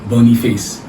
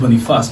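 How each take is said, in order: First: The name is said the Nigerian way. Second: The name is said the French way. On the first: "in Nigeria here they pronounce it Boniface" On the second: "is a French name, it's pronounced Boniface"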